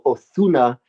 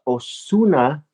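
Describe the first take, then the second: First: The middle consonant is a lisped th, Castilian-style. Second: The middle consonant is a plain Spanish s.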